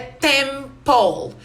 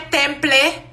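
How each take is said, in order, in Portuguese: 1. A palavra termina com o próprio som de L. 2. A palavra termina com uma vogal depois do L. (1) "O E vem antes do L na pronúncia" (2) "Não é temple"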